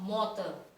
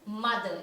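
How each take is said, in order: First: The first vowel sounds like the vowel in 'moth'. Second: The first vowel sounds like the vowel in 'mud'. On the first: The speaker calls it wrong. "It is not mother" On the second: The speaker calls it right. "then it is mother"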